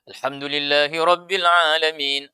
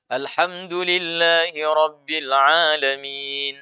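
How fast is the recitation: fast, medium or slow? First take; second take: fast; medium. First: It is recited very quickly. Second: It is recited at a moderate pace. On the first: It is the pace used for reviewing memorized text. "paling cepat" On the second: It is the pace an imam uses. "tidak terlalu lambat dan tidak terlalu cepat"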